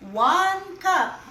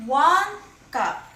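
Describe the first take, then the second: No difference in how they are said.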